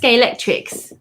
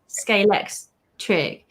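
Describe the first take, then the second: First: The word ends with an extra s sound. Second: The word ends without any s sound. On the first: This is how most other people say it. The speaker calls it wrong. "Everyone says Scalextrics" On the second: This is how the speaker says it. The speaker calls it right. "no, it's Scalextric"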